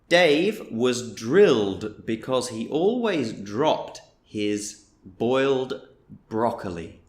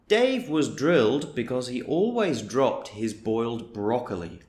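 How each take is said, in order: First: The sentence is spoken slowly and carefully. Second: The sentence is spoken at a moderate pace. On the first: "I will say the sentence slowly" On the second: "I'll say it a little bit faster"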